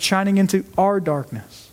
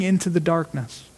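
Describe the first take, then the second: First: "our" given clear emphasis over the rest; stress on our. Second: Said in the usual way. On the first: Real, not acted. Preacher correcting himself to include the congregation, stressing "our". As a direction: punch "our" to make it personal. Rewords to make it personal.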